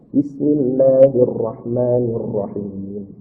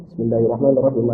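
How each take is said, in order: First: Slow, measured, low recitation; bacaan tartil. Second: Fast, low, soft recitation; bacaan hadar cepat. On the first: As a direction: draw out each syllable, softly and unhurried. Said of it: "pelan-pelan ya, biasa aja". (bacaan tartil, pelan-pelan) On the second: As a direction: recite the basmala quickly, low and softly. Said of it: "Kalau hadar itu cepat". (bacaan hadar, cepat dan pelan suaranya) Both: Shown as a demonstration.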